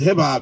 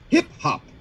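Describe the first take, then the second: First: It is said as one two-syllable word. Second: It is said as two separate words. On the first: The speaker is inside hip hop culture. "if you're a hip hop cat, it's a two syllable word" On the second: The speaker is outside hip hop culture. "If you're not, it's two words"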